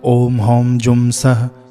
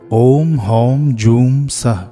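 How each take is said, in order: First: The vowel in joom is short and clipped. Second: The vowel in joom is drawn out longer. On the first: The speaker calls it wrong. "कई लोग गाते भी हैं" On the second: The speaker calls it right. "जूम को थोड़ा सा खींचिएगा"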